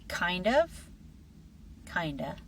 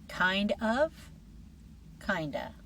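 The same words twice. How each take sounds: No difference in how they are said.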